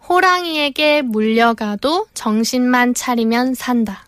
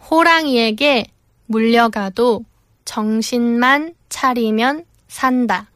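First: It is said at normal speed. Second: It is said more slowly.

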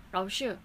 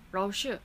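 The two takes are said the same way.

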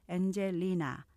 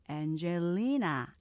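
First: All syllables are short and evenly stressed. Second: One syllable is strongly stressed, the rest weak. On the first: The speaker calls it wrong. "스타카토로 엔젤리나 이렇게 한국식으로" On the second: The speaker calls it right. "액센트를 강조하면 엔젤리나 이렇게"

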